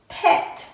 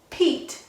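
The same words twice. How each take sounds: First: "pet" with a short e; short vowel. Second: "Pete" with a long e; long vowel. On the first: Teacher reads the closed-syllable word with the class, short vowel. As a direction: say "pet" with the e as in "bed". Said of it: "is a short E sound". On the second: Teacher reads the magic E word with the class, long vowel. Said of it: "makes this E say its long sound". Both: Shown as a demonstration.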